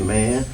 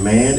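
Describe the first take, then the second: First: The word is said in an amazed tone. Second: The word is said in an angry tone. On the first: "meaning that you're amazed" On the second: "expressing anger"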